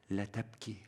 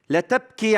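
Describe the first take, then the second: First: "لا تبكي" breathed very softly and tenderly; gentle whisper. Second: "لا تبكي" cried out high and loud; proclaimed. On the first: Acted. Jesus to the widowed mother, tender and very soft. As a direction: murmur "لا تبكي" like comfort to a grieving mother. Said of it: "صوت عم بيقول". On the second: Shown as a demonstration. Preacher to congregation, declaring the words, high and loud. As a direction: throw out "لا تبكي" like a challenge. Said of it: "عبارة لا معنى لها".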